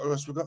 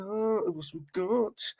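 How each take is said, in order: First: Said in the usual way. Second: Slow, higher, drawn-out sing-song. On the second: Shown as a demonstration. Streamer musing to chat who else is there, slow sing-song. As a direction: stretch it out lazily, teasing the chat.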